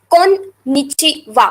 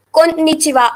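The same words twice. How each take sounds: First: Slow "konnichiwa" broken into kon, nichi, wa; teacher sounding out "konnichiwa" with kon set apart; syllable-by-syllable demo. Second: Said in the usual way. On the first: Shown as a demonstration. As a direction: separate the parts of "konnichiwa" carefully. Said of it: "The double N doesn't pronounce as double N". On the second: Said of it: "Two different words are connected".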